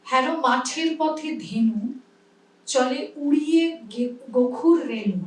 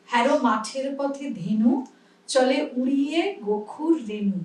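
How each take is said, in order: First: কবিতা আবৃত্তি; poem recitation. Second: ধীরে কবিতা আবৃত্তি; poem recitation. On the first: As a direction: recite the poem line with a measured rhythm. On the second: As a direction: say the line clearly for students. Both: Shown as a demonstration. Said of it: "আমরা কি বলি".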